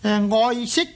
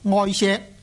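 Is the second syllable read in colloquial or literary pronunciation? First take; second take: literary; colloquial. First: The second syllable uses the literary reading. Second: The second syllable uses the colloquial reading. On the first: This is the proper reading pronunciation. "本来呢个读音呢就应该读做昔。" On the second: This is how it is said in everyday speech. "广东人在口语上呢有时呢就读做爱锡"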